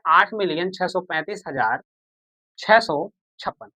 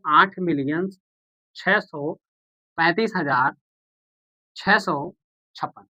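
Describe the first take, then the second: First: Slow, spelled-out reading. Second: Said in the usual way. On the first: Shown as a demonstration. Teacher repeating the number for students, slow and distinct. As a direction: read each number slowly and distinctly. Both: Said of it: "क्या पढ़ेंगे?".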